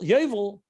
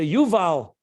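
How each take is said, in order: First: The first vowel sounds like 'oh'. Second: The first vowel sounds like 'oo'. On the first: It is the inner dimension of Bina. "with a Chaylam, Yoy" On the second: It is the outer dimension of Bina. "instead of you"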